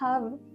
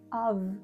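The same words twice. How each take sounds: First: The h at the start is clearly breathed. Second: The h at the start is dropped. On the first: The speaker calls it right. "les H en anglais doivent s'entendre, c'est-à-dire que vous devez prononcer have" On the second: The speaker calls it wrong. "et pas have"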